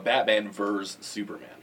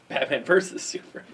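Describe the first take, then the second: First: The middle word is cut to one syllable. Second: The middle word has its full two syllables. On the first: The speaker calls it wrong. "They say verse" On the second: The speaker calls it right. "Instead of saying verses"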